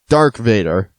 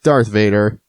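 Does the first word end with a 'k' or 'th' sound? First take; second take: k; th. First: The first word ends with a 'k' sound. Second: The first word ends with a 'th' sound. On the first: The speaker calls it wrong. "Dark Vader, not Darth Vader" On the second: The speaker calls it right. "his real name"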